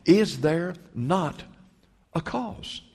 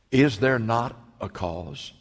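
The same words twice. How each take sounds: First: Slow, then a cause swung much higher in a rising appeal; climbing plea. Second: Slow, weighty question; slow earnest question. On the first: David pleading with Eliab, rising high and slow. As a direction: let the question climb and hang. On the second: David answering his brother, slow and steady. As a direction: lay each word down slowly. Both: Acted. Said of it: "He said".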